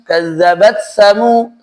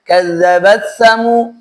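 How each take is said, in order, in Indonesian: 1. Bunyi t menyatu dengan bunyi setelahnya. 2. Bunyi t menyatu dengan bunyi setelahnya.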